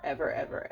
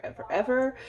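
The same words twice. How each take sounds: First: Said in the usual way. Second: Ever, ever pitched higher and louder; ever, ever stressed more and more; emphatic ever. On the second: Real, not acted. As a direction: push the last ever, ever up hard. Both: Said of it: "I don't drink coffee ever".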